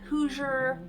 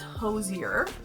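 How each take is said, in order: First: The first syllable sounds like 'who'. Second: The first syllable sounds like 'hoe'. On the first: The speaker calls it wrong. "It's not Hoosier. It's not people from Indiana" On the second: The speaker calls it right. "It's Hosier Lane"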